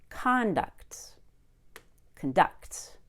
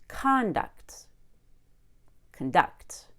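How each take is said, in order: The two takes are said the same way.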